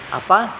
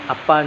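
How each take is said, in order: First: APA rising high at the end; questioning APA, last syllable lifted; individual intonation. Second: Said in the usual way. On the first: Shown as a demonstration. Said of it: "perbedaan intonasi dan gaya bahasa tersendiri". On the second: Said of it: "punya gaya tersendiri ketika mengucapkannya".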